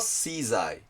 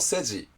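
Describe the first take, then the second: First: It is read English style, 'shizai'. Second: It is read as Japanese romaji, 'seji'. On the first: "英語式に読むと" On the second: "日本語のローマ字式に読むと"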